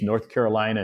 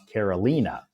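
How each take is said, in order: First: It is said the usual American state way. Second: It is said differently from the state name. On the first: It names the American state. "in America we have a uh, two states, North Carolina and South Carolina" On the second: It is the guest's personal name. "her name is pronounced Carolina"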